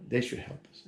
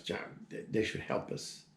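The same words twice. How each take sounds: First: Said in the usual way. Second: Mumbled under her breath, almost whispered; mumbling. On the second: Retold or imitated. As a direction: mutter it to yourself, barely voiced. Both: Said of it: "she starts mumbling".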